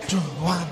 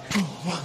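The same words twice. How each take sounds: The two takes are said the same way.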